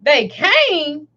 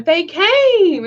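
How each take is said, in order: First: Retold disbelief. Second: Lightly voiced child, pitched higher; child announcing. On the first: Mother echoing her daughter's news, mildly incredulous. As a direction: echo it as a mother's question. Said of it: "And I was like". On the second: Daughter telling mother the police arrived, announcing. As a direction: retell it as the child's drawn-out announcement. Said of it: "She told me".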